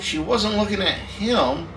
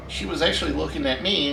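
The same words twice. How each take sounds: First: HIM stressed and drawn out. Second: ME stressed, falling at the end. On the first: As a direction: lean slowly on the word "him" at the end. Contrasts who was stared at. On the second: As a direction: land the contrast on "me". Corrects it to himself. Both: Real, not acted.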